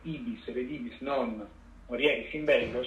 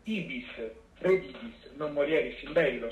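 First: The pause comes right after 'non'. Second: The pause comes right before 'non'. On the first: You will go, not return, and die in battle. "cioè andrai, non tornerai perché morirai in battaglia" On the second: You will go, return, and not die in battle. "cioè andrai, tornerai, non morirai in battaglia"

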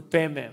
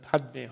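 First: The d sound after pa is dropped. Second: The d sound after pa is clearly pronounced. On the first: This is how it is said in Tibet. "the Tibetans go Padme... they sound pe. They don't use the stop" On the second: This is how it is said in India. "the Indians must have done Padme Hum"

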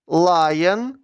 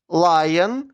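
Both takes have the same delivery.

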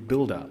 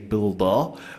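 First: It is said in the speaker's plain accent. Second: It is said in an imitated Boston accent.

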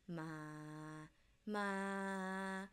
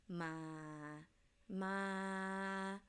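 The two takes are said the same way.

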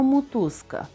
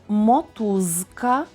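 First: The first vowel sounds close to u. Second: The first vowel is a clear o. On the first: "а вимовляємо «мотузка», «о» наближене до «у»" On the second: "Пишемо «мотузка»"

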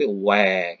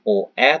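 First: The vowels are merged quickly into one glide, WE. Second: The two vowels are sounded separately, O then E. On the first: The speaker calls it right. "bacanya cepat menjadi bukan OE tapi WE" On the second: The speaker calls it wrong. "bukan OE"

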